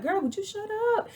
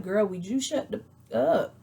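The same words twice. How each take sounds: First: High, rushed exasperated cry; exasperated outburst. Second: Retold exasperation. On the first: Retold or imitated. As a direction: blurt it out high and fast, fed up. Her exasperated thought at Drew. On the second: Quotes Sheree saying the same.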